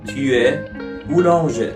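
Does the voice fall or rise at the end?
fall. The voice stays level or falls at the end. It states a fact.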